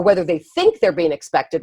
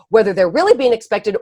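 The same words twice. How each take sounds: First: "think" stands out from the other words; stress on THINK. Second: "really" lifted above the other words; stress on REALLY. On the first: Separating perceived from real expectation, stress on "think". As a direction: punch the word "think". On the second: Separating real from perceived expectation, stress on "really". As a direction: punch the word "really". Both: Real, not acted.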